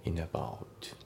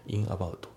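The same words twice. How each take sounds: First: "インアバウト" run together as "inabout"; N flows into A in "インアバウト"; linked pronunciation. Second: "インアバウト" as separate "in abauto"; katakana-style "インアバウト", final TO sounded; unlinked pronunciation. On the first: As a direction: model "インアバウト" as one word, final T light. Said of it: "リンキングで". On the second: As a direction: keep N and A apart in "インアバウト". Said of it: "じゃなくて". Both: Shown as a demonstration.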